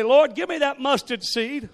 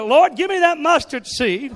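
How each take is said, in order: First: Louder, higher earnest plea; fervent prayer. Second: Loud, high, full fervent cry; said like you mean it. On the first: Congregation praying aloud, a loud earnest plea. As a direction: ask for it with all your heart. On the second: Congregation urged to mean it, a loud fervent cry. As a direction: cry it out with total conviction. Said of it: "Say it like you mean it". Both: Shown as a demonstration.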